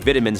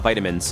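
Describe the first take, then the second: First: It is said with a British pronunciation. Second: It is said with a non-British pronunciation. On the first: "People from the U K say vitamins" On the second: "not vitamins"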